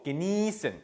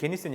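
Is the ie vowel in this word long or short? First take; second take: long; short. First: The ie vowel is long. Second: The ie vowel is short. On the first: The speaker calls it right. "이 긴 발음이 나야 되거든요" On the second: The speaker calls it wrong. "genießen이 아니고"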